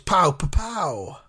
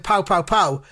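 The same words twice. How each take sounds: First: The middle pow is said shorter. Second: All three pows are said fully. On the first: "I kind of abbreviated the middle one" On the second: "instead of saying pow, pow, pow"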